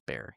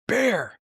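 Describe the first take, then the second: First: The word is said at a normal volume. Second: The word is screamed loudly.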